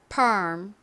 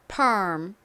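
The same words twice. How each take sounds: First: It is said with American English pronunciation. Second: It is said with American English pronunciation.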